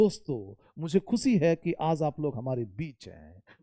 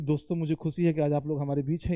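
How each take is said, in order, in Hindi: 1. Pitch ऊपर-नीचे होती है और ऊर्जा जीवंत लगती है। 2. पिच एक ही स्वर-स्तर पर सपाट रहती है। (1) "मेरी एक्शन, मेरी एक्सप्रेशन, मेरी बातों का उतार चढ़ाव" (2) "मोनोटोनस"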